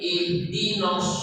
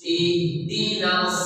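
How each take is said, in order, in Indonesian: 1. Suku kata terakhir memiliki vokal 'o' yang membulat. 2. Suku kata terakhir memiliki vokal 'a' yang terbuka. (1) "Jadi tidak boleh ihdinos" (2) "hak harokatnya baris fathah"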